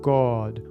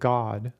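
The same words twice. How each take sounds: First: The vowel is big, wide and dramatic. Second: The vowel is short and flat, Midwestern style. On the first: "a big, you know, much wider, more dramatic way of saying the word" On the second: "like a Midwesterner like myself would normally say"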